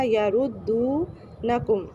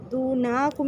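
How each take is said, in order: First: یردونکم very slow, the dal vowel drawn long and the noon kept short; correct یردونکم. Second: دونکم with the noon drawn out, marked as wrong. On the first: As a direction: recite یردونکم carefully, lengthening only the madd after dal. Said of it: "میں دال کو کھینچیں گے". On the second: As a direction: stretch the noon in دونکم as the mistake. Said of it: "دونکم نہیں پڑھنا". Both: Shown as a demonstration.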